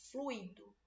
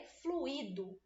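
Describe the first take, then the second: First: Fluido as FLUI-do, ui in one syllable, stress on the U; correct fluido. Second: Fluido in three syllables, flu-Í-do, stress on the I; mispronounced fluido. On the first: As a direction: say fluido slowly with a gliding ui diphthong. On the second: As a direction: stretch fluido slowly with an accented I. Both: Shown as a demonstration. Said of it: "Aí fica parecendo que o I tem acento".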